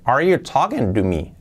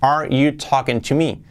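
First: The t in 'to' sounds like a soft r. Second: The t in 'to' is a clear t. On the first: "Se puede decir la T de to, la penúltima palabra, como una resuave" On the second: "Bien pronunciado"

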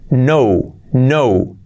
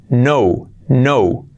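No difference in how they are said.

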